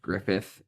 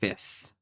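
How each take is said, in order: First: The name ends with a TH sound. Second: The name ends with an S sound. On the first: The speaker calls it wrong. "mine is not pronounced Griffith" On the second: The speaker calls it right. "We pronounce the D's as S's"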